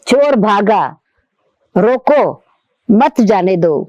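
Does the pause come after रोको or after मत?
after रोको. The pause comes right after रोको. Stop the thief, don't let him go. "the thief is running away, stop, don't let him go"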